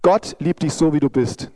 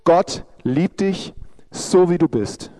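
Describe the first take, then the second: First: It is spoken at a normal pace. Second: It is spoken slowly.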